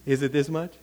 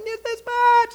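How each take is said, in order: First: Said in the usual way. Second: Very high squealed exclamation; playful mock yell. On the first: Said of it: "the game I play with my daughter". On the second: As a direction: squeal it gleefully in a game with your daughter. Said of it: "We start yelling".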